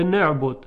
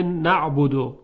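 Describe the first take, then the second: First: نعبد said as "ne'budu"; dialect vowel. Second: نعبدو said as "na'budu"; standard vowel. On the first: Teacher shows what he said instead, نعبد as "ne'budu". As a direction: front the first vowel of نعبد to e. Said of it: "میگفته". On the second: Teacher shows what he couldn't manage, نعبدو as "na'budu". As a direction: say نعبدو with an open a first. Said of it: "میسر نبوده براش که بگه". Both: Shown as a demonstration.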